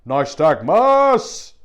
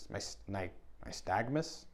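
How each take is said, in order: First: Loud, slow roar of "Nystagmus!"; Viking battle cry. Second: Quiet, puzzled question; unsure. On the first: Pretend. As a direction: bellow "Nystagmus!" like a Viking warrior. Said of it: "It sounds like a Viking". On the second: Real, not acted. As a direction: try the word uncertainly, asking "nystagmus?". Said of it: "I don't even know what that is".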